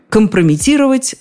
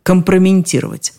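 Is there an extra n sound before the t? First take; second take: no; yes. First: No n sound comes before the t. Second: An extra n sound comes before the t. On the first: The speaker calls it right. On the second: The speaker calls it wrong.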